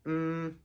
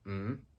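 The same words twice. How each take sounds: First: The pitch stays high and level. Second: The pitch rises from mid to high. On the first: "the first tone is high and flat" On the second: "rising tone"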